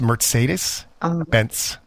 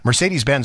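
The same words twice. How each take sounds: First: The name is pronounced the German way. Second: The name is pronounced the English way. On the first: The speaker calls it right. "It's Mercedes-Benz" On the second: The speaker calls it wrong. "we also say that one wrong"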